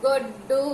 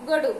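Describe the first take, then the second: First: గొడ్డు with a held, doubled డ్డ; said with vattu. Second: గొడు with a quick single డ; said without vattu. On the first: Teacher reading the word after adding vattu, pressed double గొడ్డు. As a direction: stop on the డ్డ, then release గొడ్డు. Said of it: "అదే డా ఒత్తు ఇచ్చిన తర్వాత". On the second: Teacher reading the word written without vattu, single-consonant గొడు. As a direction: say గొడు short, no pause on the consonant. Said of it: "డా ఒత్తు లేకుండా రాసినప్పుడు". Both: Shown as a demonstration.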